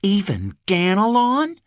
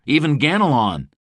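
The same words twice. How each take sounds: First: Even Ganelon rising high in surprised echo. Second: Said in the usual way. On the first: A narrator's reading. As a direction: repeat Even Ganelon as a startled question. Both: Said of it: "she echoed".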